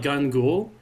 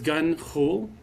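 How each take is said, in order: First: The gh is a plain hard g sound. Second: The gh is rasped in the back of the throat. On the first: "as if you call them like Gun Ghoul, Gun Ghoul is good" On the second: "you have to have like a guttural thing in the back of your throat"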